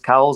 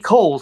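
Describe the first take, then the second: First: The first syllable sounds like the word 'cow'. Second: The first syllable does not sound like 'cow'. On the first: This is how most people commonly say it. "everyone I know refers to it as Cowles" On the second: This is the family's official name. "officially, it has to be Cowles because it's the name of a family"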